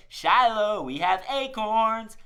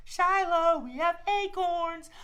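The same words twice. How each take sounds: First: Calling out. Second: Put-on much higher, slow kid-like call; sweet high call. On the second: Host models for kids offering the squirrel acorns, much higher. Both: Shown as a demonstration. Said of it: "Hold out your hand ... and say".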